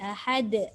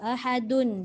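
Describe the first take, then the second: First: The word ends on a silent final consonant. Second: The word ends with a full vowel ending. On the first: The reader stops at this word. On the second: The reading continues without stopping.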